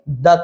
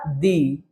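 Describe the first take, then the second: First: The word ends in a short 'uh' vowel. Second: The word ends in a long 'ee' vowel. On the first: The next word begins with a consonant. "Consonant के पहले आएगा तो द पढ़िएगा" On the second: The next word begins with a vowel. "जब vowel के पहले आएगा तो इसको दी पढ़िएगा"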